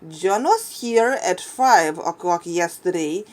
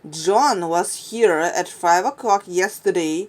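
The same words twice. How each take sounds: First: The stress is on the word five. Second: The stress is on the word John.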